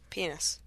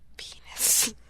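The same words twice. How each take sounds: First: The word is said fairly quietly. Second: The word is said loudly.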